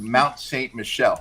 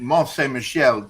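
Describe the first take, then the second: First: The first word is said the English way. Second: The first word is said the French way. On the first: The speaker calls it wrong. "into Mount Saint Michel" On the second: The speaker calls it right. "[name] chopping Mont Saint Michel"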